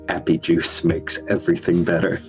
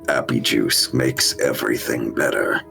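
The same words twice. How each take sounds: First: It is said in the speaker's normal voice. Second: It is said in an imitation of Nox's voice.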